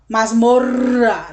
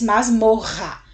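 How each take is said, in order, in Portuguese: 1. O duplo R é dividido em dois sons. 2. O duplo R é um único som. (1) "Você não diz masmorra" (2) "você diz masmorra, o som R"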